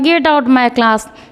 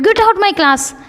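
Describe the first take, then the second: First: It is said in a slack, lazy way. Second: It is said with strong, angry force. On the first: The words do not match the feeling behind them. The speaker calls it wrong. "एकदम lazy mood में" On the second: The speaker is furious and means it. The speaker calls it right. "अगर आपको गुस्सा आ रहा है भयंकर ज़्यादा"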